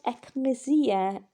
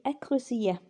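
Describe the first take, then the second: First: Ecclesia drawn out slowly; Greek word. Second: Ecclesia pronounced as Greek; Greek word. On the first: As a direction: model ecclesia slowly for the class. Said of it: "we get ecclesiastical in English". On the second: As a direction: model ecclesia. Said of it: "which is a church". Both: Shown as a demonstration.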